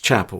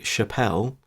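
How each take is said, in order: First: The stress is on the first syllable. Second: The stress is on the second syllable. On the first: "it's Chapel, right" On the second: "sometimes such people might be Chappelle"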